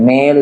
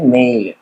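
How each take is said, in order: First: The vowel is a plain long 'e' sound. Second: The vowel glides from 'e' to 'ee'. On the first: The speaker calls it wrong. "మెయిల్ కాదు" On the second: The speaker calls it right. "ఎయి అంటే ఆ, ఇలా పలకాలన్నమాట"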